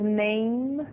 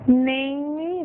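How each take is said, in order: First: The word ends cleanly on the final consonant. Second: An extra vowel sound is added after the final consonant. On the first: The speaker calls it right. "vamos dizer name" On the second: The speaker calls it wrong. "não vamos dizer name"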